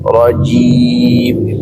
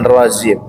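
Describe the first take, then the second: First: The middle consonant sounds like a j. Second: The middle consonant sounds like a z. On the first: The speaker calls it right. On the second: The speaker calls it wrong. "jangan rozim, itu masih ada seperti zai"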